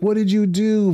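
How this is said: It is said in a kind, gentle tone.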